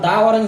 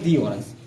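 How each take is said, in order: First: 'The' is said with a short 'uh' vowel. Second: 'The' is said with a long 'ee' vowel. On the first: The speaker calls it wrong. "এখানে আমরা দা orange বলতে পারবো না" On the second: The speaker calls it right. "এটা বলবো দি orange"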